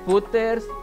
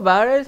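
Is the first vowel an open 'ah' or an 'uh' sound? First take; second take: uh; ah. First: The first vowel is an 'uh' sound. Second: The first vowel is an open 'ah' sound. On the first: This may be the official pronunciation of the name. "me creo que la pronunciación es Butters" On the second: This is how the speaker says the name. "Yo le digo Batters"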